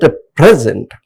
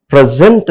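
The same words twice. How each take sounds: First: "present" as a noun, PRES-ent; stress on first syllable. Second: "present" as a verb, pre-SENT; stress on second syllable. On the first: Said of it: "as per the syllable, the grammatical function changes". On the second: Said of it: "pronunciation differs and pronunciation changes". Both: Shown as a demonstration.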